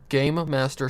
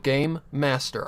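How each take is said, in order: First: It is said fast, with the m sounds run together. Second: It is said slowly, with both m sounds clear. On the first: "if I'm saying that fast" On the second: "I would have to say it like that in order to get it to sound correct"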